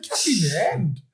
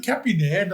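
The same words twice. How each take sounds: First: Disbelieving, questioning repeat; incredulous echo. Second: Said in the usual way. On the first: Retold or imitated. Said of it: "I was like". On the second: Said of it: "She literally said".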